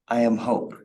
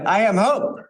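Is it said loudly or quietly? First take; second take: quietly; loudly. First: It is said quietly and softly. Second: It is said loudly and excitedly.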